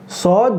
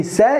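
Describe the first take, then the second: First: Sad with a thick, heavy s. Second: Sa with a thin, light s. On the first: Teacher showing the heavy letter sad. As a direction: darken the s in Sad. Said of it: "don't say sa". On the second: Teacher showing the wrong light sa. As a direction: keep sa thin and bright. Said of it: "you will make it light". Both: Shown as a demonstration.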